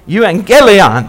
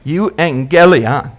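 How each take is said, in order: First: Euangelion slower and fuller, stress on gel; emphasis on gel. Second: Euangelion drawn out slowly, syllable by syllable; slow Greek pronunciation. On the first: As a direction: say Euangelion whole, leaning on gel. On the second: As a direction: sound out Euangelion slowly for the people. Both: Shown as a demonstration. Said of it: "Put the emphasis on the gel".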